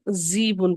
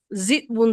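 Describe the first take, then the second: First: ذیبن with a long smooth "ee", no catch; hamza turned to ya. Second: ذئبن with a short "i" cut by a glottal stop; hamza pronounced. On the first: Teacher showing students the changed word, long ya. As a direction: draw out the first vowel of ذیبن. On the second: Teacher showing students the original word, hamza pronounced. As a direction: catch the throat in ذئبن before the "b". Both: Shown as a demonstration. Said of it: "ذئبن سے ذیبن بن گیا".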